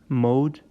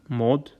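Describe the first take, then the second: First: The vowel glides like English 'mode'. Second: The vowel is a short, plain o. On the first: The speaker calls it wrong. "we may be tempted to pronounce it as" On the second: The speaker calls it right. "but it's mod"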